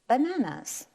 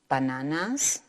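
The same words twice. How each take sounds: First: The word is pronounced with English sounds. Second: The word is pronounced with Spanish sounds.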